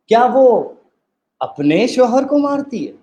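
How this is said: The stress falls on the word अपने. She might be beating someone else's husband. "अब हम तीसरी दफ़ा में एम्फसाइज़ करेंगे।"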